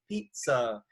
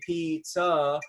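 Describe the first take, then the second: First: The stress is on the first syllable. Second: Both syllables get equal stress. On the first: The speaker calls it right. "You usually say pizza" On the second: The speaker calls it wrong. "you don't just say pizza and it's equal"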